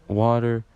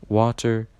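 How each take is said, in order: No difference in how they are said.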